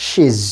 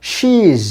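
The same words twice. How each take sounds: First: She is run together as "shiz" with a short i; short vowel. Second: She is run together as "sheez" with a long ee; long vowel. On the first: Teacher offers the alternative correct option, short vowel. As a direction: keep the vowel brief in contracted she is. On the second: Teacher offers the first correct option, long vowel. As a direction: draw out the vowel in contracted she is. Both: Shown as a demonstration. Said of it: "long sound, short sound".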